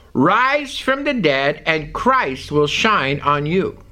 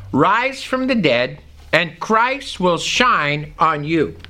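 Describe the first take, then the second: No difference in how they are said.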